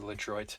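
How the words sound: The name is said with an American pronunciation. "the Americanized way of saying it"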